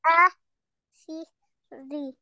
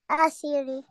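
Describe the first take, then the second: First: "Asiri" very slowly as a, si, ri with gaps; learner's slow, separated "Asiri"; syllable by syllable. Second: Said in the usual way. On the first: Shown as a demonstration. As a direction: sound out "Asiri" piece by piece. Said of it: "read it alphabet by alphabet". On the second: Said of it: "you make one word".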